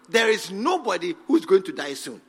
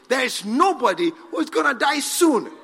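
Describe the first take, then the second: First: It is said flatly, without feeling. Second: It is said with strong passion.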